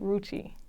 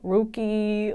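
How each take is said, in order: First: The middle consonant is a ch sound. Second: The middle consonant is a hard k sound. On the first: The speaker calls it right. "pronounce it one more time just to be clear" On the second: The speaker calls it wrong. "they don't know how to say Ruchi. They kill Ru- Ruchi"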